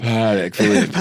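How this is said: It is said with an exaggerated put-on French inflection. The speaker calls it wrong. "get the inflection to sound a little more uh, appropriate"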